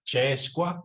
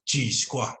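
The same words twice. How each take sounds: First: "Che squa" with an "ay" vowel in Che; "Che squa", first vowel as in "day"; other dialect's pronunciation. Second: "Chi squa" with a long "ee" in Chi; "Chi squa", first vowel as in "see"; northern pronunciation. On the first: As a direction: say "Che squa" with Che sounding like "chay". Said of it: "we don't really say che". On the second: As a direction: say "Chi squa" with Chi sounding like "chee". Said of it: "We always go with the E". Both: Shown as a demonstration.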